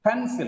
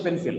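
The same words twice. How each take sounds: First: "Pencil" with a strong PEN, falling away on -cil; PEN-sil, clearly weighted at the front; stress on first syllable. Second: Said in the usual way. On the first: Shown as a demonstration. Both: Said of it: "not just pencil".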